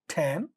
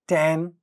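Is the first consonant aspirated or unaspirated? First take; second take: aspirated; unaspirated. First: The first consonant has a puff of air. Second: The first consonant has no puff of air. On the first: "the initial sounds get aspirated" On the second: "without aspiration"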